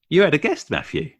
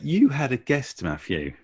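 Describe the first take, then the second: First: It is said at a normal, quicker speed. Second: It is said slowly and carefully. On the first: "I did a little bit higher in the voice there" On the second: "that was slower"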